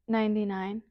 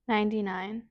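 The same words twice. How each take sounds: The two takes are said the same way.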